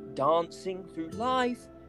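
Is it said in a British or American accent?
British. It is said in a British accent.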